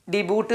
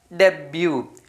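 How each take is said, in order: First: ഡിബൂട്ട് with the t sounded, spelt out letter by letter; wrong reading. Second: ഡബ്ല്യു with a silent t; correct reading. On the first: Teacher demonstrates the wrong reading ഡിബൂട്ട് to children. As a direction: say ഡിബൂട്ട് pronouncing the final t as written. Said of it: "ഇല്ല". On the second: Teacher gives children the right reading ഡബ്ല്യു, t silent. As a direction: say ഡബ്ല്യു ending on the vowel, no t. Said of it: "ഇവിടെ ടി silent ആണ് വരിക". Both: Shown as a demonstration.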